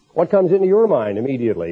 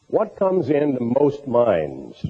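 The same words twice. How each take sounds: First: "your" stressed in a quicker, direct question. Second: Unhurried question, spaced out, with "most minds" given weight; slow, measured question. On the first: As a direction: hit "your" to turn the question on the listener. Same question turned on the listener. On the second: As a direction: ask "what comes into most minds" slowly and deliberately. General question, then turned on listeners. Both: Real, not acted.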